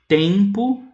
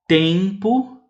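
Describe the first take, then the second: The two takes are said the same way.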